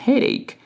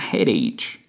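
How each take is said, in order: First: The final consonant is a hard k sound. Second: The final consonant is a ch sound. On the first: The speaker calls it right. "you have a headache" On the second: The speaker calls it wrong. "not a headache"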